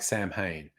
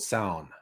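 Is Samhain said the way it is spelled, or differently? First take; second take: as spelled; differently. First: It is read letter by letter as spelled. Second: It sounds unlike its spelling, Gaelic style. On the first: The speaker calls it wrong. "looks like Sam Hain" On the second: The speaker calls it right. "the pronunciation is very different um, to what it looks like"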